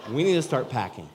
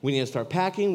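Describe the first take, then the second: First: Excited urging. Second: Excited urging, stress on packing. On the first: Repeated line, louder. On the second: Repeated, higher and louder. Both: Retold or imitated.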